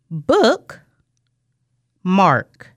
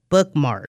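First: The two parts are said with a pause. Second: The two parts are said with no pause. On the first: "Our last pair" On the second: "Blend them together"

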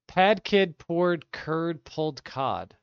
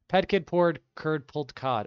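First: The sentence is said at a slow pace. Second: The sentence is said at a fast pace. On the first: "I'm going to just read it" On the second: "Let me try to say it fast"

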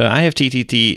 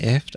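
First: Each letter of the name is spelled out. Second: The name is said as one short word. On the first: "you don't say all the letters of it" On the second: "Some people say IFT"

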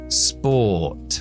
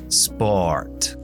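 First: British accent with no r sound after the vowel. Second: American accent with an r sound after the vowel.

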